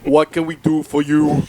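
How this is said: It is said in a heavy Austrian accent.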